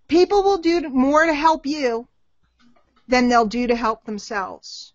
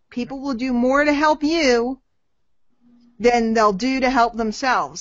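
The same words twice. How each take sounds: First: Slow, deliberate dictation pace. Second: Said in the usual way. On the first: Shown as a demonstration. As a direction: say it slowly so they can write it down. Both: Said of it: "Write this down".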